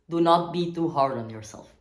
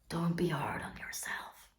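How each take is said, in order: First: It is said loudly and firmly. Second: It is said in a soft voice.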